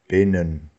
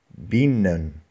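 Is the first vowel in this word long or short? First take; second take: short; long. First: The first vowel is short, near an e sound. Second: The first vowel is a long i sound. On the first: The speaker calls it right. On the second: The speaker calls it wrong.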